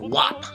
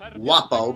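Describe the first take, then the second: First: The word ends on a consonant, vowel dropped. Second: The word ends with a final vowel sound.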